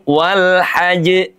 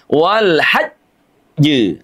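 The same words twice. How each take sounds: First: The final sound comes straight through without any hold. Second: There is an overly long hold before the final sound. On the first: "Jangan langsung" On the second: "tapi tidak juga berlebihan"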